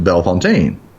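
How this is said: The name is pronounced with French sounds. The speaker calls it wrong. "my French, we know, wants to pronounce it"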